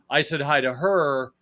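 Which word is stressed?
her. The stress is on the word her.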